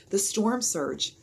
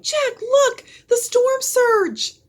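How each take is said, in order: First: Said in the usual way. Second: Higher, louder, slow alarmed scream. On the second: A narrator's reading. Annie screaming at the coming surge, a high alarmed scream. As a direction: point in terror at the wave. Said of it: "Annie screamed".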